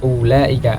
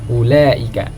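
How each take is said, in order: First: The extra waw is pronounced after the first vowel. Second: The extra waw is silent after the first vowel. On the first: The speaker calls it wrong. "Jadi bukan dibaca ulaika" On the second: The speaker calls it right. "melainkan ulaika"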